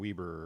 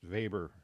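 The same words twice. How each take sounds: First: The name is pronounced a non-German way. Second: The name is pronounced the German way. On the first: The speaker calls it wrong. "rather than Weber" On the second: The speaker calls it right. "He's a German sociologist. That's why it's pronounced Weber"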